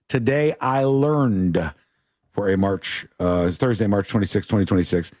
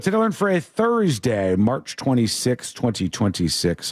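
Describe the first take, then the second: First: It is said a little more slowly. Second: It is said at a normal pace.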